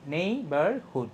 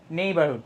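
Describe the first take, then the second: First: Slow neighbourhood in three parts; split into syllables. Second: Said in the usual way. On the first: Shown as a demonstration. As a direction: separate নেই, বার and হুড in neighbourhood. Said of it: "তিন ভাগ". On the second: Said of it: "এভাবে বলতে পারবো না".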